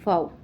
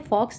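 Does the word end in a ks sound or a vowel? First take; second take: vowel; ks sound. First: The word ends with a vowel sound. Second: The word ends with a ks sound. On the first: The speaker calls it right. "इसको जो है वो फाओ बुलाया जाता है" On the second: The speaker calls it wrong. "फॉक्स pronunciation is wrong"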